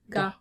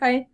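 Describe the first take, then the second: First: The word ends with a plain 'ah' sound. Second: The word ends with an 'eye' sound. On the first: The speaker calls it right. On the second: The speaker calls it wrong. "No, it's not Gai"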